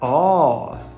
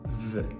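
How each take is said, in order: First: The vowel is an open o sound. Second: The vowel is not an open o sound. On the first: The speaker calls it wrong. "se você disse off, você não está nem perto" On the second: The speaker calls it right. "a pronúncia dela é of"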